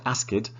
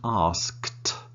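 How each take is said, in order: First: The ending is said as an extra syllable. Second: The ending is said as one syllable. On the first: The speaker calls it wrong. "It is not asked" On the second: The speaker calls it right. "It is one sound"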